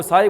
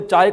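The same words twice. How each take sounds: First: साय, with s in place of च. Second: Said in the usual way. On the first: Retold or imitated. Teacher listing dialect examples, साय with s. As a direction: say चाय as साय, starting on s. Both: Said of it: "चाय को कुछ लोग बोलते हैं साय".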